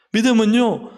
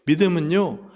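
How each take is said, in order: First: 믿음은요 called out higher and louder; emphatic. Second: Said in the usual way. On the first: Shown as a demonstration. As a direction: hit 믿음은요 hard. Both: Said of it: "repeated with emphasis".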